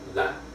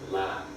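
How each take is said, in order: First: The syllable ends abruptly with a glottal stop. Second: The syllable is said on a low pitch. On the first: "the full stop" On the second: "low tone"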